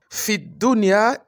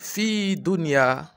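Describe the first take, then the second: First: The vowel in fi is short before a doubled d. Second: The vowel in fi is drawn out long. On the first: The speaker calls it right. "tu ne peux pas tirer sur le fa là. Il y a une shadda sur le dal" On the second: The speaker calls it wrong. "et non fi dunya"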